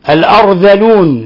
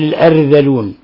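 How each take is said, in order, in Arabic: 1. صوت الراء ممتلئ وثقيل. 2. صوت الراء رقيق وخفيف.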